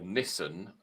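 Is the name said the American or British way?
British. It is said the British way.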